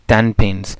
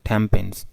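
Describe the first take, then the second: First: The first word ends with an N sound. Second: The first word ends with an M sound. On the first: "टेन pins की बजाय" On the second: "native speaker टेन pins की बजाय टेम pins कर देते हैं"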